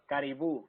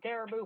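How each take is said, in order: First: The word is said with a Spanish pronunciation. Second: The word is said in a Southern US accent. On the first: "that's how you pronounce it in Spanish?" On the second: "When he uses a southern accent, he actually says it right"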